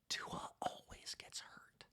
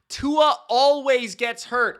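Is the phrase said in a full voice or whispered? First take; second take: whispered; full. First: It is said in a whisper. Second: It is said in a full, louder voice. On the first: It is shared as a secret. "I'll whisper it really clearly for you to hear" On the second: It is repeated so everyone hears it. "in case you didn't hear me the first time"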